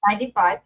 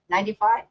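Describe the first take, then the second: First: "Ninety-five." settled with a falling tune; "Ninety-five." stated firmly, dropping at the end; confirming tone. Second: "ninety-five?" asked with a rising question tune; unsure "ninety-five?", voice lifting at the end. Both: Real, not acted.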